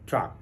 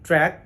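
First: The vowel is an open 'ah' sound. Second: The vowel is a flat 'a' as in cat. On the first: The speaker calls it wrong. "এটিকে বলা হয়ে থাকে ট্রাক" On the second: The speaker calls it right. "আসলে এটির সঠিক উচ্চারণ হলো ট্র্যাক"

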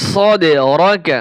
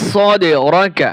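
Both takes have the same delivery.

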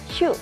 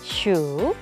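First: The syllable is said with a sharp falling tone. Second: The syllable is said with a low dipping tone. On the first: It is the noun meaning number. "슈 이렇게 사성으로 읽어주면 됩니다" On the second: It is the verb meaning to count. "슈 이렇게 삼성으로 읽어주고요"

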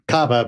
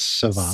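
First: The word begins with a K sound. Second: The word begins with an S sound. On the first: The speaker calls it wrong. "It looks like Cava" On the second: The speaker calls it right. "but it's Ceva"

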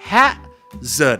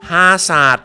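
First: The word ends with a 'zerd' sound. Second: The word ends with a 'saat' sound. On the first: The speaker calls it right. "เขาออกเสียงอะไรไหมครับ, hazard" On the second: The speaker calls it wrong. "ชาวไทยออกเสียงอะไรไหมครับฮาศาสตร์ตลกมาก"

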